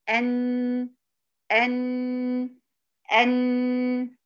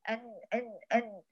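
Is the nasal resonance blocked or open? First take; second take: open; blocked. First: The nose is open, so nasal resonance sounds fully. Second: The nose is pinched, so nasal resonance is blocked. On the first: The tongue part and nasal part sound together equally. The speaker calls it right. "فلازم أفك الضغط على الأنف عشان يطلع الاتنين مع بعض" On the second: Only the tongue part of the letter is produced. The speaker calls it wrong. "طلع الجزء اللساني أهو"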